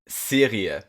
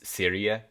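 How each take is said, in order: First: The R is pronounced in a German way. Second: The R is pronounced in an English way. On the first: "if I would do my best German for this" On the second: "you could also just do like an English R"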